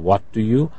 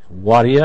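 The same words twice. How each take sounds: First: Each word is pronounced fully and separately. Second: The words are run together in a reduced form. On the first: "instead of what do you" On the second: "What do you instead of what do you?"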